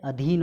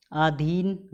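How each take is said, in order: First: अधीन opening on short "a"; short first vowel. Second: अधीन opening on long "aa", slowly; wrong long vowel. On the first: Teacher correcting students, short-a अधीन. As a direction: say अधीन as "a-dheen". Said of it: "होता है". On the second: Teacher showing the error, long-aa अधीन. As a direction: stretch अधीन into "aa-dheen". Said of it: "गलत है". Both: Shown as a demonstration.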